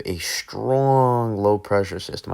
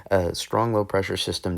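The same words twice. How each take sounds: First: Accidental New York accent, leaning hard on strong; a touch of New York in a louder, stretched "strong". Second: Said in the usual way. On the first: Real, not acted. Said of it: "said that with a New York accent". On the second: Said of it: "I don't know why I said that with a New York accent".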